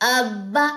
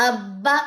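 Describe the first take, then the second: Both takes have the same delivery.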